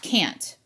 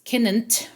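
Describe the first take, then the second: First: The word is said as one syllable. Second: The word is said as two syllables. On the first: The speaker calls it right. "if we were to clap it out, it's can't" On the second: The speaker calls it wrong. "with the two N's, it would actually be two syllables"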